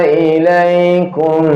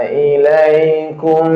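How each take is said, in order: The two takes are said the same way.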